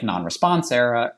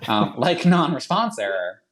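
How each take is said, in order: First: Slipping into a Boston accent. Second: Said in the usual way. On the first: Real, not acted. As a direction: let the Boston accent slip out on "error". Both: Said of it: "there's my Boston accent coming out".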